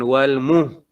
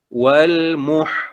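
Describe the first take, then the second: First: The h-sound is soft and light. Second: The h-sound is harsh and breathy. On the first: The speaker calls it wrong. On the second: The speaker calls it right. "kita ada huruf ha, pedas"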